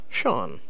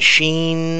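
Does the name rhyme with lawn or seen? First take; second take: lawn; seen. First: The name rhymes with lawn. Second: The name rhymes with seen. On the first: This is how it is said in America. The speaker calls it right. "in America, it's pronounced Sean" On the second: This is how some people say it. The speaker calls it wrong. "people have been saying Sheen"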